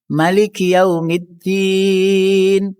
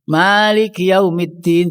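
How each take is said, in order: First: The first vowel of Maliki is short. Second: The first vowel of Maliki is long. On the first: "mai pendek" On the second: "membacanya panjang"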